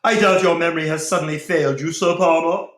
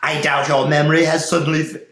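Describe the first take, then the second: First: Higher, louder and fast voice of the Templar; Templar's voice. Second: Wrong voice. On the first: A narrator's reading. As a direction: accuse him sharply and quickly. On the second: Shown as a demonstration. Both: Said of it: "wrong voice".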